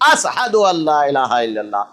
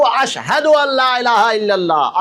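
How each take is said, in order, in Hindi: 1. पहला शब्द 's' की आवाज़ के साथ बोला गया है। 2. पहला शब्द 'sh' की आवाज़ के साथ बोला गया है। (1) "सीन सिंपल वाला बगैर नुक्ते वाला सीन बोलते थे" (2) "शीन नुक्ते वाला शीन"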